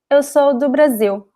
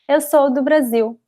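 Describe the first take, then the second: No difference in how they are said.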